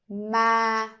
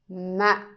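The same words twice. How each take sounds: First: The pitch stays level and fairly high. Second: The syllable is cut short. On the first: "You keep it stable, a little bit high" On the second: "The dot tells you to make it short"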